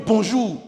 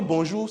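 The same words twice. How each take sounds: First: BONJOUR loud, high and falling; hostile bonjour. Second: Bonjour rising at the end; enquiring bonjour. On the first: Teacher showing a bonjour that ruins the day, loud falling tune. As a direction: greet so the day sounds spoiled. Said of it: "c'est pas le même bonjour". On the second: Teacher showing bonjour that asks for news, rising tune. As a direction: greet as if asking for news. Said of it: "c'est pour demander une nouvelle". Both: Shown as a demonstration.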